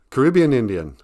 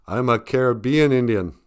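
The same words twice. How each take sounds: First: "Caribbean" stressed on RIB: kuh-RIB-ee-un; pronunciation variant. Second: "Caribbean" stressed on BE: ka-ri-BEE-an; pronunciation variant. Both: Shown as a demonstration. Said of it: "How do you say that?".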